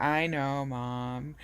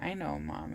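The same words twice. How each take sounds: First: Loud, mock-exasperated daughter; eye-rolling exasperation. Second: Said in the usual way. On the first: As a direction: roll your eyes out loud at mom. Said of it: "rolling my eyes". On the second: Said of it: "and I was like".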